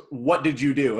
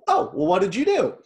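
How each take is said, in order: First: Suspicious, accusatory question; blunt, accusing demand. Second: Light, genuinely curious asking; easygoing, curious tone; curious, friendly question. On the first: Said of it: "I totally looked at it just". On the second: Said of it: "as I was reading it, like, I'm sure that the intention behind it was". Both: Retold or imitated.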